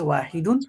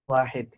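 First: The word ends with an extra '-un' syllable. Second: The word ends on a bare consonant. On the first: This is the standard Arabic form. "মূলত আরবি হচ্ছে ওয়াহিদুন" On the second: This is the local Gulf form. "Local আরবিতে বলা হয় ওয়াহেদ"

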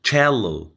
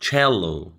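The two takes are said the same way.

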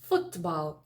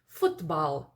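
The two takes are said the same way.

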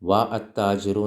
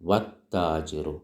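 First: A separate 'a' vowel is sounded before the t. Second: No separate 'a' or 'l'; the t is doubled. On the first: The speaker calls it wrong. "വ അത്താജിറു എന്ന് പറഞ്ഞോ? ഇല്ല" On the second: The speaker calls it right. "അലിഫ് ഉച്ചരിക്കൂല, ലാം ഉച്ചരിക്കൂല"

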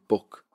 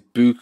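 First: The word has a standard English vowel. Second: The word has a Liverpool vowel. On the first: "that's how we say book in England" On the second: "we say book in Liverpool"

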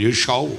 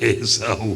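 First: The second syllable begins with an 'sh' sound. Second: The second syllable begins with an 's' sound. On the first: It sounds like English mixed into Telugu. The speaker calls it wrong. "ఏ షావు అంటుంది. ... షావు కాదు" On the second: It is the clear Telugu pronunciation. The speaker calls it right.

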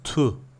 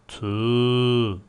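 First: The vowel is short. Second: The vowel is long. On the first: "Bu harf tek başına nasıl okunur?" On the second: "Peşine vav gelse tu. Uzatma var"

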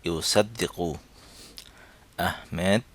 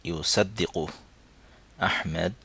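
The two takes are said the same way.

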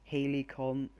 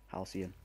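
First: The word is said like Helicon. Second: The word is said like Halcyon. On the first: The speaker calls it wrong. "I can't say that word" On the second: The speaker calls it right. "That's how you pronounce it"

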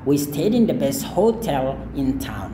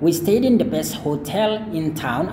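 First: The stress in hotel is on the first syllable. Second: The stress in hotel is on the second syllable. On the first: "kalau misalkan kan Anda mau tekankan dipakai ho-nya" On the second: "jadi kita bisa tekankan di bagian tel-nya. For example"

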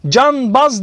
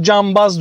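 First: The sound before the b is an n. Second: The sound before the b is an m. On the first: The speaker calls it wrong. "canbaz demiyoruz" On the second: The speaker calls it right. "cambaz diyoruz"

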